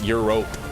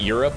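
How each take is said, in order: First: The ending rhymes with the word 'rope'. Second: The ending sounds like 'rup', unstressed.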